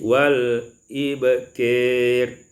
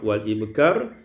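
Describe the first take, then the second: First: The last vowel is tilted toward e. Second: The last vowel is a plain open a.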